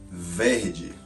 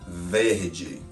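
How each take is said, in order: No difference in how they are said.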